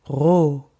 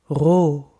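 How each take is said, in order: First: The R is a gargly sound in the throat. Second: The R is a gargly sound in the throat.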